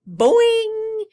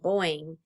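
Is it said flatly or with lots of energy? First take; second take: energetic; flatly. First: It is said with lots of energy. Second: It is said flatly, with little energy.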